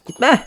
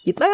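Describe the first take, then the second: First: High, loud cry of don't go; calling out. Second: Said in the usual way. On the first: Acted. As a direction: shout it after someone walking away. Calling after leaving character.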